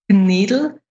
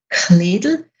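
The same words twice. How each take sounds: First: Further east: less aspirated K, weaker D. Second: Western dialect: strongly aspirated K, clear D.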